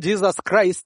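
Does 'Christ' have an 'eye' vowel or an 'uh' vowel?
eye. Christ is said with the usual 'eye' vowel. "instead of saying"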